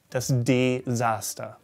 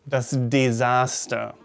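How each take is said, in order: Both takes have the same delivery.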